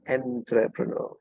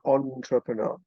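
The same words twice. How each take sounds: First: The first syllable sounds like 'en'. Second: The first syllable sounds like 'on'. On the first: The speaker calls it wrong. "not entrepreneur" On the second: The speaker calls it right.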